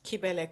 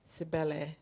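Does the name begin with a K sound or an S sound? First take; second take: K sound; S sound. First: The name begins with a K sound. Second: The name begins with an S sound. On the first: "my Instagram um, handle is Kibele Comedy" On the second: "English people read as Sibel"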